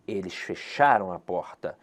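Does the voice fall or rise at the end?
fall. The voice falls at the end, like a statement.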